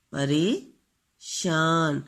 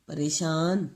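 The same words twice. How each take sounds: First: پریشان stretched very slowly; پریشان drawn out so pupils hear the vowel; drawn-out model word. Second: Said in the usual way. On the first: Shown as a demonstration. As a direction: say پریشان slowly, drawing out each sound. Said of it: "اس میں بھی چھوٹی اے کی آواز". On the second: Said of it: "اس میں بھی چھوٹی اے".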